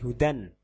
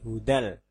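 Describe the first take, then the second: First: The word ends with an n sound. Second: The word ends with an l sound. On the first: The speaker calls it wrong. "Tidak boleh hudan" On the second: The speaker calls it right. "tapi hudal"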